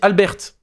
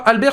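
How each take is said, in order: First: The name is pronounced the Albanian way. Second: The name is pronounced the French way. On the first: The speaker calls it right. "ça se dit Albert, parce que c'est albanais" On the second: The speaker calls it wrong. "Ça se dit pas Albert"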